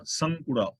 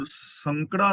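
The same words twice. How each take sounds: First: ਸੰਕੁੜਾ with a clear u sound after k; ਸੰਕੁੜਾ, voicing the aunkar under kakka; correct reading. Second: ਸੰਕੜਾ read without the u after k; ਸੰਕੜਾ, the flat wrong reading with no aunkar sound. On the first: Teacher giving the correct reading ਸੰਕੁੜਾ with the aunkar. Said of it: "ਕੱਕੇ ਥੱਲੇ ਔਂਕੜ ਦੀ ਆਵਾਜ਼ ਆਏਗੀ". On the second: Teacher showing the wrong reading ਸੰਕੜਾ, no aunkar. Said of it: "ਸੰਕੜਾ ਨਹੀਂ ਪੜ੍ਹਨਾ". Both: Shown as a demonstration.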